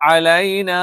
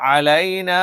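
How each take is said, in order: Both takes have the same delivery.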